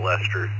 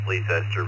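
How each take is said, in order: First: The name is said simply as 'Lester'. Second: The name is said in its fuller, formal form. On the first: This is how local people say it. "But us locals call it Lester" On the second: This is the official way to say it. "The tech technical pronunciation is Leicester, just like in England"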